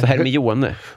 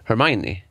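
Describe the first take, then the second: First: The name is said as it is spelled. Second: The name is said the way the films say it. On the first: This is how it was read aloud before the films. "Att det var ett annat uttal, för vi hade ju inte sett filmerna" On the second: This is the pronunciation learned later from the films. "Har jag sett nu i efterhand"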